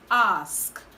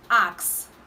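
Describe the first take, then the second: First: The S sound comes before the K. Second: The K sound comes before the S. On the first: The speaker calls it right. "the right to pronounce this word is ask" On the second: The speaker calls it wrong. "commonly pronounced axe"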